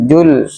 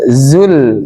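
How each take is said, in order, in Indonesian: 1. Kata ini dimulai dengan bunyi j. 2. Kata ini dimulai dengan bunyi z yang berdengung. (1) "bukan jul" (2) "zainya dikuatin aja"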